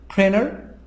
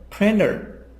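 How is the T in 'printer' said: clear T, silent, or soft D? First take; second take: silent; soft D. First: The T sound is dropped completely. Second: The T sounds like a soft D. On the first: "the T is going to be silent because there is N before T" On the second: "T a soft D"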